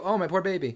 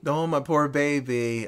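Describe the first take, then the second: First: The mom's limp, quiet lament; mom's flat line. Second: Slow, soft mocking echo of the mom; slow deadpan echo. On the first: Retold or imitated. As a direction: say it softly, barely caring. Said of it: "the mom does go". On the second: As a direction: drag each word out, mocking.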